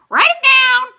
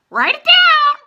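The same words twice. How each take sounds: First: Very high, loud squawk; raven voice. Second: Very high, loud squawking raven voice; raven yell. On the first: Blue Sky the raven squawking at the table. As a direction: screech like a raven. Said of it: "said Blue Sky". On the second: Blue Sky the raven yelling from the roof. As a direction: screech it like a raven. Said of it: "Blue Sky yelled". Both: A narrator's reading.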